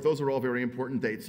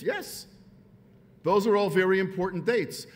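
First: Said in the usual way. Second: "Yes" pitched high, then "those are all very important dates" higher and louder; emphatic concession. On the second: Acted. Speaker granting the point before rebutting it, emphatic "those are all very important dates".

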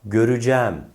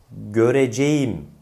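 First: "göreceğim" contracted to gö-rü-cæm; spoken form. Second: "göreceğim" fully sounded as gö-re-ce-yim; as written. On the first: Teacher introduces the spoken word, "göreceğim" as görücæm. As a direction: turn "göreceğim" into gö-rü-cæm, open e. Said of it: "okunan yahut söylenen". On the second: Teacher introduces the word, "göreceğim" as spelled. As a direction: give "göreceğim" every written syllable. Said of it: "olarak yazılan". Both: Shown as a demonstration.

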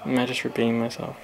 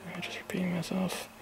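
First: Said in the usual way. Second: Soft unvoiced whisper to himself; breathy self-questioning whisper. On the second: Real, not acted.

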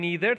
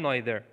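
First: "neither" starting with a long "nee"; NEE-ther pronunciation. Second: "neither" starting like "nigh"; NYE-ther pronunciation. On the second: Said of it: "هر دو درسته". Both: Shown as a demonstration.

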